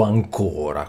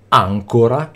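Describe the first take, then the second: First: "ancora" slowly with the stress on the middle syllable, an-CÓ-ra; slow down and hit the second syllable of "ancora"; stress contrast demo. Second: "ancora" with the stress on the first syllable, ÀN-co-ra; stress contrast demo. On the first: Teacher contrasting the second stress of ancora for students. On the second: Teacher showing students the first stress of ancora. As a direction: say "ancora" leaning on the opening syllable. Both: Shown as a demonstration. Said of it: "Vi faccio un esempio che è quello tipico".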